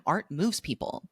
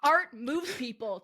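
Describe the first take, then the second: First: Disdainful. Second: Slow, drawn-out sneer; mock disdain. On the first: Real, not acted. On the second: Host mimicking her cohost's disdainful line, slow and sneering. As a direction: draw it out with lofty scorn. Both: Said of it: "The way that you said that with such disdain".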